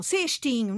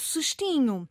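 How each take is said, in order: First: CESTINHO with a full first e, "sêstinho"; wrong full vowel. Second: CESTINHO as s'stinho, slowly; reduced first vowel. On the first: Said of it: "não". ("Cestinho" com o primeiro e pleno) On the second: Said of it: "a vogal anterior baixa um tom". ("cestinho" com o primeiro e fechado) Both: Shown as a demonstration.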